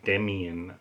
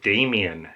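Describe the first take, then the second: First: "Demian" with a short e, DEM-ee-un; rejected pronunciation. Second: "Damien" with a long ay, DAY-mee-un; recalled pronunciation. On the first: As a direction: say "Demian" softer and slower, first syllable "dem". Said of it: "not Demian". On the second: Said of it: "I think he pronounced it Damien". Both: Shown as a demonstration.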